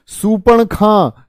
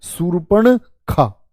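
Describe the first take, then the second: First: सूर्पणखा stretched slowly with a high start; slow drawn-out pronunciation. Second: सूर्पणखा drawn out slowly, falling at the end; slow careful pronunciation. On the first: Teacher to students, slowly modelling सूर्पणखा. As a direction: sound out सूर्पणखा syllable by syllable. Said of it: "सूर्पणखा होती है". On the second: Teacher quizzing class, slowly repeating सूर्पणखा. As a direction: draw out सूर्पणखा so students copy. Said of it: "क्या होती है?". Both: Shown as a demonstration.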